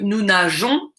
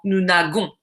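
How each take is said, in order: First: The middle consonant is a soft zh sound. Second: The middle consonant is a hard g sound. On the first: The speaker calls it right. "je veux" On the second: The speaker calls it wrong. "et non pas"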